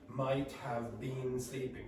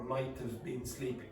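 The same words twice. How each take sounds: First: Every word is said fully and separately. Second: 'Have' is reduced and run into 'might'. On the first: The speaker calls it wrong. "native speakers are not going to say" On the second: The speaker calls it right. "You're going to get"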